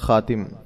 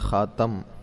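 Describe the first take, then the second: First: The vowel after the t is i. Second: The vowel after the t is a.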